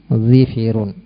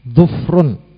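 First: Both syllables of the stem have an i vowel. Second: The stem has u, with no vowel after f. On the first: "mengkasrah huruf dhad dan huruf fa-nya menjadi dhifirun" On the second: "mendhamah huruf dhad dan mensukun huruf fa"

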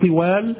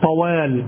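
First: The first consonant is followed by an i vowel. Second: The first consonant is followed by an a vowel. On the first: The speaker calls it wrong. "لا تقول طوال بكسر الطاء" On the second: The speaker calls it right. "طوال الدهر هذا بفتح الطاء"

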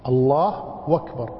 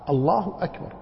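First: Akbar begins with a w sound. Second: Akbar begins with a clear glottal stop. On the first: The speaker calls it wrong. "لا يحقق همزة أكبر وإنما يجعل بدلها واوا" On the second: The speaker calls it right. "والصحيح أن يقطع"

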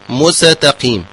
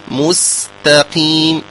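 First: The s is split off and given a vowel. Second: The s is soft and breathy, flowing on. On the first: The speaker calls it wrong. "هكذا نسمع كثير من القراء" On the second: The speaker calls it right. "فعليه ببيان همسها برفق وبتؤدة، فيقول مستقيم مستقيم هكذا"

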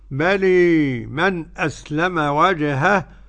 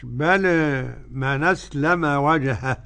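First: The final vowel of bala leans strongly toward e. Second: The final vowel of bala leans slightly toward e. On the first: "هجيب الإمالة" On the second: "هجيب التقليل ورش"

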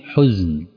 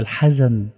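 First: The first vowel is a rounded 'u' sound. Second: The first vowel is an open 'a' sound. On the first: This is sorrow as felt in this world. "بالضم" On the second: This is sorrow as named in the afterlife. "بالفتح"

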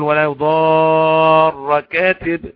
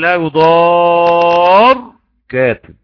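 First: The r is doubled and followed by a vowel. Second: The r is short with no vowel after it. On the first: This is the reading of all the reciters. "كل القراء بيقول" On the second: This is a variant allowed for one reciter. "سكن خفف بس"

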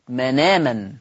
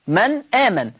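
First: The glottal stop is dropped; its vowel joins nun. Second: A glottal stop follows the silent nun consonant. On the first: "بشيل الهمزة واخد الفتحة اللي على الهمزة حطها على النون" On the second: "لاحظوا كده النطق من آمن"

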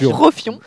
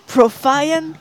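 First: The name is pronounced with a French accent. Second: The name is pronounced with an English accent. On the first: "En français" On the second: "En anglais"

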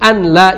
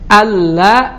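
First: The n is kept separate before the l. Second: The n is merged into a doubled l. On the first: Ordinary Arabic is read without recitation rules. "Tapi kalau selain dari Al-Quran tidak pakai tajwid. Biasa saja" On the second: Quran recitation rules are applied. "Ada kan di Al-Quran ya"

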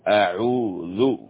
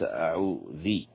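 First: The word ends without an added 'i' vowel. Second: The word ends with an added 'i' vowel. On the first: The speaker calls it right. "ضم حرف الذال من أعوذ" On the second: The speaker calls it wrong. "وليس أعوذي"

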